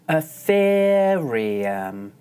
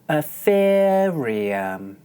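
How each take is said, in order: The two takes are said the same way.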